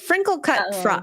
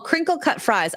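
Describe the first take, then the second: First: The first word begins with an 'fr' sound. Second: The first word begins with a 'cr' sound. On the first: The speaker calls it wrong. "I said frinkle cut fries" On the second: The speaker calls it right. "they're called oh crinkle cut fries"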